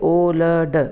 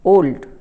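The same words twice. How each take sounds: First: The word is split into separate broken parts. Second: The word is said smoothly in one go. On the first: The speaker calls it wrong. "आप ऐसे नहीं बोलेंगे" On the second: The speaker calls it right. "ये भी एक बार में बोला जा रहा है"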